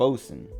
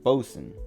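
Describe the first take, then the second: First: It sounds short, like bo-sun. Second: It sounds short, like bo-sun.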